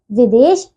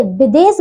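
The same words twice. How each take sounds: First: विदेश as "videsh", slow and low; correct pronunciation. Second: विदेश as "bides", b and s; mispronunciation. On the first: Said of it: "विदेश सही है". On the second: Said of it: "विदेश गलत है". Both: Shown as a demonstration.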